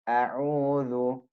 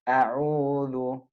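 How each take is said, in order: Both takes have the same delivery.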